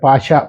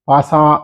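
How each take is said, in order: First: The middle consonant is an sh sound. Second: The middle consonant is a plain s sound. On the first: The speaker calls it right. "ఈ పాషాకి పాసాకి చూసుకోవాలి" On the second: The speaker calls it wrong. "పాసా అంటున్నారు"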